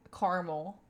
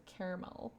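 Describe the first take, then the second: First: "caramel" squeezed into two syllables, CAR-mul; old pronunciation of caramel. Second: "caramel" with a first syllable like care, CARE-a-mel; corrected pronunciation of caramel. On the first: Kentucky streamer showing how she used to talk, "caramel" as CAR-mul. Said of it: "I used to also say caramel". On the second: Streamer showing the way she learned, "caramel" as CARE-a-mel. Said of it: "instead of caramel". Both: Shown as a demonstration.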